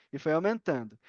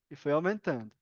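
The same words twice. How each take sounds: The two takes are said the same way.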